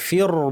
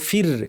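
First: The r sound is heavy and thick. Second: The r sound is light and thin. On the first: The speaker calls it wrong. "ফির বলবো না" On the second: The speaker calls it right. "এই র সাকিনটা পাতলা হবে"

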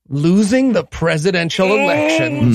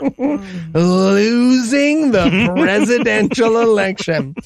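First: The phrase is said at a normal pace. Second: The phrase is said slowly and deliberately.

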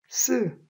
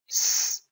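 First: The s is short and tense, like a syllable. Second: The s is a soft hiss of air. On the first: The speaker calls it wrong. "한국 사람들이 쓰 그래요" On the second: The speaker calls it right. "속살거려지며 공기가 좁은 통로를 통과해야 나는 소리입니다"

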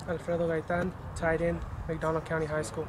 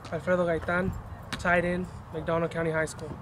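First: It is said at a quieter volume. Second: It is said at a louder volume.

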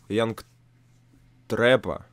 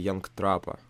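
First: The first vowel of the name sounds like 'e'. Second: The first vowel of the name sounds like 'a'. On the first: "Янг Трэпа или Янг Трапа. Я не понимаю, как правильно" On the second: "Янг Трэпа или Янг Трапа. Я не понимаю, как правильно"

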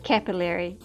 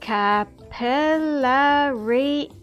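First: It is said with an American pronunciation. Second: It is said with a non-American pronunciation.

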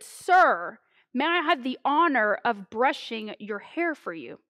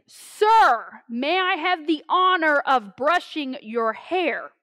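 First: It is said somewhat louder than normal. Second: It is said very loudly, almost yelled.

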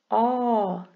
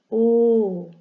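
First: The vowel is said with an open mouth. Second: The vowel is said with a closed mouth. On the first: "Aqui é aberto" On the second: "e aqui é fechado"

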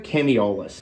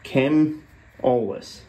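First: The name has an extra syllable in the middle. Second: The name has no extra syllable in the middle. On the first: The speaker calls it wrong. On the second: The speaker calls it right.

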